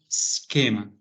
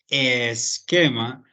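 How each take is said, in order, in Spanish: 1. La palabra empieza directamente con el sonido s. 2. Hay una vocal extra, la e, antes de la s. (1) "sino esquema" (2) "no diríamos esquema"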